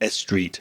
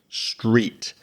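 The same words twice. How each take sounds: First: An extra eh vowel comes before the s. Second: The word starts directly on the s sound. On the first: The speaker calls it wrong. "you might be very tempted to put a little eh sound in front" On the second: The speaker calls it right. "No, it's just stop and street"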